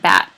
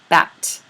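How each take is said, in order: First: The final t is held, not released. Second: The final t is clearly released. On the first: "But typically we say it bat" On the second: "in overproduction is to really release that word final T"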